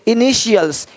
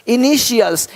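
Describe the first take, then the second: The two takes are said the same way.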